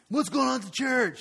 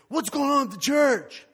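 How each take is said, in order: First: The question is said in a plainer, calmer way. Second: The question is said in an exaggerated, dramatic way. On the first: The speaker calls it right. "No, I didn't say it like that" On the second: The speaker calls it wrong. "I'm being dramatic"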